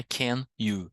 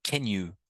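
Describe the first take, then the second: First: "can you" as two separate careful words; the unlinked textbook "can you"; can you, words separated. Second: "Can you" run together as one word; quick, joined-up "Can you"; linked can you. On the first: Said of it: "não é can you". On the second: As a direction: link "Can" straight into "you". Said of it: "Olha o som". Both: Shown as a demonstration.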